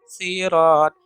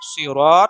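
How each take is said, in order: First: The word begins with a plain s sound. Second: The word begins with an emphatic s sound. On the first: "sod dibaca dengan huruf sa" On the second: "seperti dalam dalam dalam kata sod ya"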